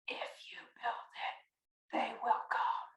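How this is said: It is whispered, imitating the movie voice.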